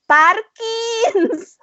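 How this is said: The name is said with an Indian-style accent. This is how people in India say the name. The speaker calls it wrong. "in India, ... they'll say Parkins"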